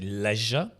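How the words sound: It is said with a British pronunciation. "in Britain we say leisure, like le, left"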